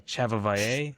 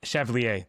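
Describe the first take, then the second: First: "Chevalier" fumbled as cheh-vah-vai-AY; stumbling mispronunciation. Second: "Chevalier" said as shev-lee-AY; corrected French pronunciation. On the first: Real, not acted. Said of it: "I'm gonna pr". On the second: Shown as a demonstration. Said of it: "that's how you say it".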